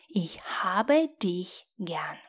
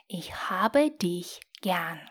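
No difference in how they are said.

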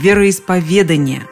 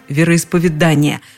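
First: The stress falls on the syllable -ве-. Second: The stress falls on the syllable -да-. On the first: The speaker calls it right. "Все словари настаивают именно на таком ударении" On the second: The speaker calls it wrong. "встречается вариант вероисповедания, но рядом с ним стоит строгая помета «неправильно»"

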